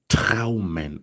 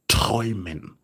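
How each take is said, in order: First: The first vowel is not an 'oi' sound. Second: The first vowel is an 'oi' sound. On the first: The speaker calls it wrong. "Don't say traumen" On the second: The speaker calls it right. "This is pronounced as träumen"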